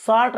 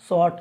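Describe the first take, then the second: First: शॉर्ट with open aa and sounded r; wrong reading demo. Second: शॉर्ट with rounded aw and silent r; correct reading demo. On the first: Teacher recapping the mistake, mispronounced. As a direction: show शॉर्ट misread as "saart". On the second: Teacher recapping the right reading, carefully pronounced. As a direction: model शॉर्ट as "shawt". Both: Shown as a demonstration. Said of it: "शॉर्ट नहीं".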